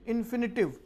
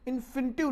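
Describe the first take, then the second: First: इन्फिनिटिव said with a clear f, in-fi-ni-tiv; correct pronunciation. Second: इन्फिनिटिव said with a p, like inpinitive; wrong pronunciation. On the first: Teacher corrects students, इन्फिनिटिव with clear f. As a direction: say इन्फिनिटिव properly with the f sound. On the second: Teacher mimics students' wrong इन्फिनिटिव with p. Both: Shown as a demonstration. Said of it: "इन्फिनिटिव नहीं".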